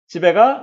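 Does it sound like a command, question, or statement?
question. The pitch rises at the end. The speaker asks whether someone is going home. "의문문이 되는 거고요"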